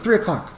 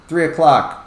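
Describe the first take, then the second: First: It is blurted out quickly. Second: It is said slowly and clearly.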